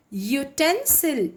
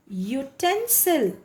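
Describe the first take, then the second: No difference in how they are said.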